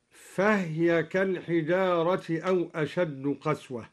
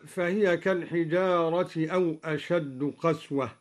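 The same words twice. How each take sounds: First: فهي read fahya with the ha silenced; silent ha in فهي. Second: فهي read fahiya with a kasra on the ha; vowelled ha in فهي. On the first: Teacher demonstrating al-Duri's silent ha. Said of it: "بإسكان الهاء". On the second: Teacher reciting the base reading of فهي. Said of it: "قرأ الدوري بإسكان الهاء". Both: Shown as a demonstration.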